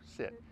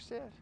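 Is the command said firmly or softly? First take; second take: firmly; softly. First: The word is said firmly, with force. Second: The word is said softly, without force. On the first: The speaker calls it right. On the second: The speaker calls it wrong. "So if you say"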